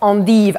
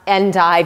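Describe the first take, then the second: First: It is pronounced the French way. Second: It is pronounced the American way.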